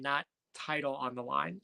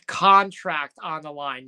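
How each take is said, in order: First: Said in the usual way. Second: "Contract" stretched and emphasized, then the rest follows; stressed misspoken word. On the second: Retold or imitated. Host quotes Logan's slip, slow emphasis on "Contract". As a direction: lean slowly on "Contract", pushed out firmly. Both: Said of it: "the part that Logan Paul messed up".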